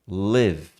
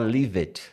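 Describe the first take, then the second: First: The word is said as one syllable. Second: The e is sounded as an extra syllable. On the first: The speaker calls it right. "Lived é lived" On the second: The speaker calls it wrong. "toma cuidado para não falar lived"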